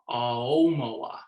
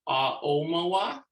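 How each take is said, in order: First: The first two vowels flow together without a break. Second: A glottal stop separates the first two vowels. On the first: "no glottal stop... it sounds more fluid like this" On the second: "have a glottal stop between the ah and the o"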